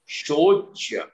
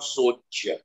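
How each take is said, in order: First: The word begins with an sh sound. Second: The word begins with a plain s sound. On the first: The speaker calls it right. "you have to be very clear with your pronunciations. Shocha" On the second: The speaker calls it wrong. "not Socha"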